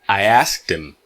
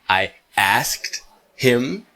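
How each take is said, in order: First: The word him is reduced to im. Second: The word him is said fully with h.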